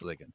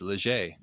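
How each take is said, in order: First: The surname is said with an English-style pronunciation. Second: The surname is said with a French-style pronunciation. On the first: The speaker calls it right. "So it's it's Liggett" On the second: The speaker calls it wrong. "if my first name were Jacques, that people would probably would say it's Leger, but it's not"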